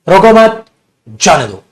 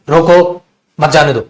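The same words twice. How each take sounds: First: The pause comes right after 'mat'. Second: The pause comes right after 'roko'.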